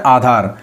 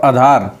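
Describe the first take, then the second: First: आधार with a long opening aa; correct pronunciation. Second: आधार with a short first a; wrong pronunciation. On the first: Teacher corrects the word for students, long first vowel. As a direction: open आधार on a full aa. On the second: Teacher reads the faulty form, short-vowel mispronunciation. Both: Shown as a demonstration. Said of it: "को बोलते हैं आधार".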